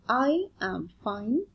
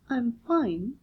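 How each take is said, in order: First: 'I am' is said as two separate words. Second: 'I am' is contracted into one syllable. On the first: The speaker calls it wrong. "The reply is I am fine" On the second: The speaker calls it right. "a better way of saying it is I'm fine"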